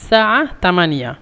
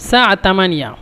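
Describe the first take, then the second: The two takes are said the same way.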